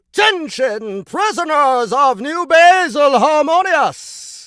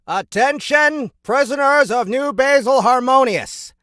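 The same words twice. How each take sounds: First: It is said showily, with dramatic flair. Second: It is said plainly, without much flair.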